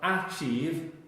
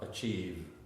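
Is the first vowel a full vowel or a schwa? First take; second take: full vowel; schwa. First: The first vowel is a full vowel. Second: The first vowel is a reduced schwa. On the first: The speaker calls it wrong. "It's not achieve" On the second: The speaker calls it right. "it's the schwa up"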